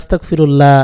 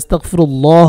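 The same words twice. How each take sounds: First: The 'llah' is said thin and light. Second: The 'llah' is said full and heavy. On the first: The speaker calls it wrong. "অনেকে পরে আস্তাগফিরুল্লাহ, আস্তাগফিরুল্লাহ না" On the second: The speaker calls it right. "আল্লাহ শব্দকে মোটা করতে হবে"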